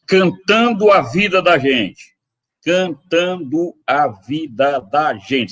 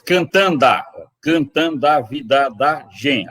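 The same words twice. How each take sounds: First: Slow, "Cantando a" kept apart without elision; every syllable said. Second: "Cantando a" run together as "cantand'a"; with elision. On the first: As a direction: sound out all eight syllables. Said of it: "Se ele fosse dizer todas as sílabas". ("Cantando a" sem elisão, sílaba por sílaba) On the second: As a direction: glide the final o into the a. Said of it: "é como se dissesse". ("Cantando a" com elisão, "cantand'a") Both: Shown as a demonstration.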